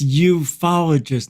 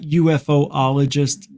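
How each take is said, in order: First: It is said without an extra middle syllable. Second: It is said with an extra middle syllable. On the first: The speaker calls it right. "It's ufologist" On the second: The speaker calls it wrong. "not UFOologist"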